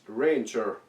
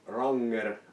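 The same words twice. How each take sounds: First: The name is said the English way. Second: The name is said the Finnish way.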